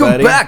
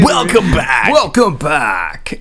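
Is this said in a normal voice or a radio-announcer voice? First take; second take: normal; radio voice. First: It is said in an ordinary speaking voice. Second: It is said in a put-on radio-announcer voice.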